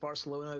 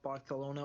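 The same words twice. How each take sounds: First: The 'c' is a plain 's' sound. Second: The 'c' is a lisped 'th' sound. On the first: "rather than saying calling a place" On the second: "they call it Barcelona"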